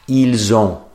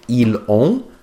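First: The s of ils links as z into ont. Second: The s of ils is silent before ont. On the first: The speaker calls it right. "if there is a vowel starting the next word, they'll drag it over" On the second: The speaker calls it wrong. "instead of saying ils ont"

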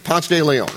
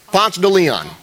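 First: The name is pronounced the conventional, standard way. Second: The name is pronounced the local Atlanta way. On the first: "That's how you say it" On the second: "In Atlanta, you know what you call it?"

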